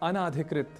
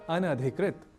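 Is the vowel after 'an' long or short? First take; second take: long; short. First: The vowel after 'an' is a long 'aa'. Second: The vowel after 'an' is short. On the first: The speaker calls it wrong. "कुछ अशुद्धियां होती हैं" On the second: The speaker calls it right. "होना चाहिए इसे अनधिकृत"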